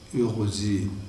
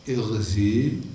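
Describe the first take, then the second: First: The first vowel is i tinged with u rounding. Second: The first vowel is a plain unrounded i. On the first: "بالإشمام، بإشمام الكسر صوت الضمة" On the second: "يجوز لك فيه الكسر"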